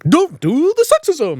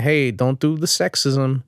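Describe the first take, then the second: First: It is said with lively, entertaining energy. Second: It is said flatly, without energy.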